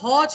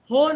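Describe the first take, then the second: First: The vowel is an open, wide o. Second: The vowel is a close, narrow o. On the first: The speaker calls it right. "હોસ્પિટલનો હો છે" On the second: The speaker calls it wrong. "હો નથી"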